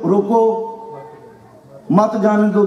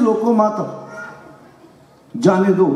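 First: The pause comes after ਰੋਕੋ. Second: The pause comes after ਮਤ.

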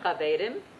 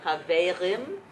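First: The R is rolled with the tongue tip. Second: The R is made at the back of the throat. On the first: "if you know Spanish, you can roll it" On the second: "You can also make it more like a French R"

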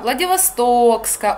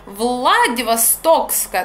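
First: The word carries a single stress. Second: The word carries two stresses.

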